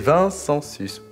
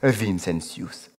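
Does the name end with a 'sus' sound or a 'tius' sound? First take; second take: sus; tius. First: The name ends with a 'sus' sound. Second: The name ends with a 'tius' sound. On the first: The speaker calls it wrong. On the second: The speaker calls it right.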